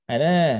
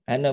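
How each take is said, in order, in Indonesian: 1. Vokal terakhirnya dibaca panjang. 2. Vokal terakhirnya pendek dan terpotong. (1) "Maka akan dibaca dengan panjang" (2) "Tapi kalau sekiranya dia terusin, itu bacanya pendek aja"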